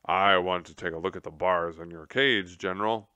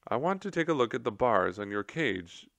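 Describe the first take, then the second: First: Corrected take in Tum Tum's own voice. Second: Said in the usual way. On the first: Acted. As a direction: redo it as Tum Tum, steady. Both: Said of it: "Oh, no, that's not Tum Tum's voice".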